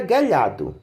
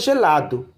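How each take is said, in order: First: The word begins with a hard g sound. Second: The word begins with a soft j sound. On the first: The speaker calls it wrong. "senão ficaria guelhado" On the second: The speaker calls it right. "vai ter som de J e não de G"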